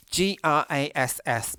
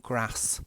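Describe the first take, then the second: First: Grass spelled out letter by letter, G R A S S, slowly; spelling it out. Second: Grass said with a short flat a, kras; own accent. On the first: Spelling the word for viewers, G R A S S, slowly. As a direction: spell out G R A S S, one letter at a time. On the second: Showing viewers how his accent says grass, short flat a. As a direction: say grass with a short northern a, not a long one. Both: Shown as a demonstration. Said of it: "my accent".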